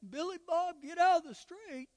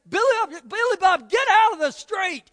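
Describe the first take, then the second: First: The voice is soft and quiet. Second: The voice is raised and loud. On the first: The danger is not taken seriously. "You wouldn't say" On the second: The child is urgently corrected out of love. "you would probably raise your voice"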